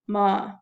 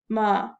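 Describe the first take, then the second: First: The pitch is low, flat and deep. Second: The same.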